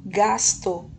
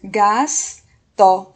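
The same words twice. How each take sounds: First: Said in the usual way. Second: GASTO as a loud GAS, pause, TO; two emphatic beats on GASTO; syllable by syllable. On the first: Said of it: "virou gasto". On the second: Shown as a demonstration. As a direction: hold the S in GASTO, then add TO separately. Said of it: "ela vai ser".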